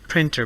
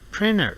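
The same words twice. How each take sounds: First: The T sound after N is pronounced. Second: The T sound after N is dropped.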